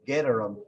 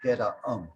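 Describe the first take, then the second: First: An R sound links the two words. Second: No R sound links the two words. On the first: The speaker calls it right. "you just stick a R sound in there" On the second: The speaker calls it wrong. "not geta um"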